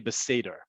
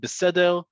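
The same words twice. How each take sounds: First: The r is an American-style r. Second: The r is a typical Hebrew r. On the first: "slang in Hebrew. It's acknowledging, some people would say mocking American accents" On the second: "the typical way you would hear it"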